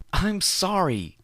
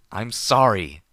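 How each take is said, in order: First: Very high, slow wailing sorry; sobbing apology. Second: Loud, higher yelled sorry; yelled apology. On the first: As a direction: wail it through sobs. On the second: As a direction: shout the apology back at him. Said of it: "I yelled back". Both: Acted.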